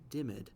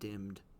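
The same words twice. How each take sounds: First: The ending is voiced, giving two syllables. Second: The ending is silent, giving one syllable. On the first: The speaker calls it wrong. "the E D might lead someone to say dimmed" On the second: The speaker calls it right. "we would say dimmed, just like I did"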